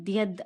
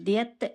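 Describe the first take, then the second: First: The syllable ends with a d sound. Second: The syllable ends with a t sound. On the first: "కానీ ద్యద్ అనమాట" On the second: "దీన్ని ద్యత్ అని కూడా పలుకుతారు"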